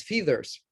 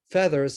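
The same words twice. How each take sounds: First: "feathers" said with a long ee, like "FEE-thers"; mispronounced feathers. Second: Said in the usual way. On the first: Retold or imitated. Child giving an oral book report, mispronouncing "feathers" as "feethers". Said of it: "because you mispronounced the one word". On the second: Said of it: "and pronouncing feathers as feathers".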